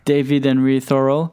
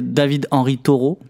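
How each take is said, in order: First: The name is pronounced in a non-French way. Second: The name is pronounced the French way.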